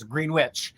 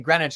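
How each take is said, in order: First: It is pronounced letter by letter, as spelled. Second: It is pronounced the usual spoken, shortened way. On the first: "spelled of course Greenwich" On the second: "everybody knows to say Greenwich"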